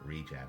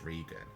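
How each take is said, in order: First: It sounds like the start of 'regeneration'. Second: It sounds like the name 'Regan'. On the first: This is how the speaker usually says it. "I always say Regen. Regen, like regeneration" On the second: This is how other people say it. "But I've heard people pronounce it as Regan"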